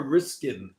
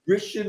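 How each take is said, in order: First: "Riskin" said with a hard sk in the middle; "Riskin" pronounced RISK-in; alternative pronunciation. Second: "Rishin" pronounced RISH-in; first possible pronunciation. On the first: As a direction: offer "Riskin" with a k sound after the s. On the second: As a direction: offer "Rishin" with sh, no k sound. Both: Shown as a demonstration. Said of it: "I don't know how to pronounce it".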